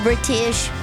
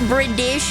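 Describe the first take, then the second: First: The middle consonant sounds like a t. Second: The middle consonant sounds like a d. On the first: "instead of British" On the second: "it's dish instead of tish"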